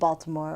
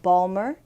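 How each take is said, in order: First: It is said in a standard accent. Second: It is said in a local Baltimore accent.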